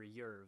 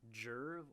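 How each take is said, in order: First: The name begins with a Y sound. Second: The name begins with a J sound. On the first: The speaker calls it right. "It's probably Yerv" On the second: The speaker calls it wrong. "Jerv or Yerv"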